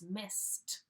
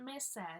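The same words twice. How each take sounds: First: The word ends with a clear T sound. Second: The word does not end with a T sound. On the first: The speaker calls it right. "it's missed with a T sound" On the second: The speaker calls it wrong. "It's not missed"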